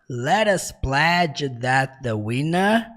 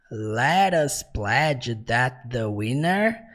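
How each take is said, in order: The two takes are said the same way.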